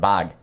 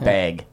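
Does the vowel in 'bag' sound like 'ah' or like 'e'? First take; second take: ah; e. First: The vowel is an open 'ah' sound. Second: The vowel sounds close to 'e', like 'beg'. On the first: The speaker calls it right. "it's an ah sound" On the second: The speaker calls it wrong. "that sounds like beg"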